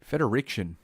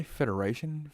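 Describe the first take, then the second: First: "Federation" said as "Feder-ICK-shun"; corrected name. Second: "Federation" said with a clear "-ay-shun" ending; misread name. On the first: Host corrects his reading of the school's name, "Federation" as "Feder-ick-shun". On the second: Host checks his misreading of the school's name, "Federation" with "-ay-shun". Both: Real, not acted. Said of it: "did I say Federation?".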